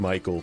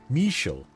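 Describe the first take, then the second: First: The name is pronounced like English Michael. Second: The name is pronounced the French way. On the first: The speaker calls it wrong. "I've been saying Michael for your name" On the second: The speaker calls it right. "It's French"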